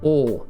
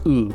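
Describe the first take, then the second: First: The vowel is a long held 'oh' sound. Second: The vowel is an 'oo' sound, as in fool. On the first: The speaker calls it right. "It's like holding the O sound" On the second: The speaker calls it wrong. "we would want to pronounce this in English as ooh"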